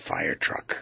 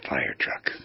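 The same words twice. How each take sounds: First: Said in the usual way. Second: "fire truck" whispered low on the breath; breathy whisper. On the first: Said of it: "how much meaning could that have". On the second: Shown as a demonstration. Host shows listeners a heartfelt way to say it, whispered. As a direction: breathe "fire truck" out softly and intimately, as if from the soul. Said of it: "As if I wanted to communicate to you".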